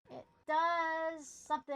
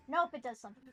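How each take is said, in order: First: DOES stretched long and loud. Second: Said in the usual way. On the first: Real, not acted. Puzzled player repeats it, drawn out.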